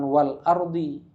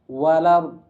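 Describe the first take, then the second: First: The glottal stop before 'ardi' is pronounced. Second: The glottal stop is dropped and the words merge.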